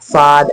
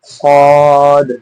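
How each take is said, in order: First: It is thin, without fullness in the sound. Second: It is heavy, with a full, thick sound. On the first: The speaker calls it wrong. "स्वाद ऐसे नहीं पढ़ना" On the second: The speaker calls it right. "आपको एक भराव महसूस हो रहा होगा"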